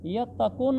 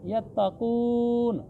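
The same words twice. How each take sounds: First: यत्तकून with a short final vowel; unstretched vowel. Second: यत्तकून with a long-held "koon"; slow recitation, drawing out the end of यत्तकून; elongated vowel. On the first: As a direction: clip the "koon" of यत्तकून short. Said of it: "यत्तकून नहीं पढ़ना". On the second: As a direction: stretch the oo of यत्तकून. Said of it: "इस पेश को भी थोड़ा खींचना है". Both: Shown as a demonstration.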